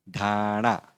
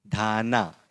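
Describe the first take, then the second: First: ढाणा with a curled-tongue ण in the last syllable; retroflex n. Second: धाना ending in a plain dental ना; wrong dental n. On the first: Teacher modelling the correct word, ढाणा with retroflex ण. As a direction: sound out ढाणा, tongue flipped back for णा. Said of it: "इसका pronunciation ण है". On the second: Teacher showing the mistake to avoid, धाना with dental न. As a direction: say धाना with the tongue at the teeth for ना. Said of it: "इस तरह से नहीं बोलेंगे". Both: Shown as a demonstration.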